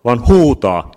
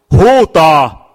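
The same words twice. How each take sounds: First: Huutaa pushed higher and louder, falling; stress on huutaa. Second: Huutaa! yelled out much higher and louder, falling; shouted demo. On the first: Preacher contrasting whisper with cry, stressing huutaa. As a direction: lean hard on huutaa with a falling end. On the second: Preacher showing the congregation how to cry out, full shout. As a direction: belt out Huutaa! as a desperate cry. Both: Shown as a demonstration. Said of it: "siinä ei sanota kuiskaa, vinkkaa, vaan huutaa".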